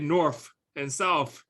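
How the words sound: The words are said in a Southern accent. "he would say north and south"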